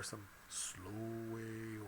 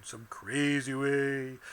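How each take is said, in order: First: Drawn-out, slow delivery. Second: Loud, stretched-out silly delivery; crazy way. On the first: Teacher showing students something to copy, slow way. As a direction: stretch the words right out. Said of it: "or some slow way". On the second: Teacher showing students something to copy, crazy way. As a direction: draw it out loud and goofy. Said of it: "say it in some crazy way". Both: Shown as a demonstration.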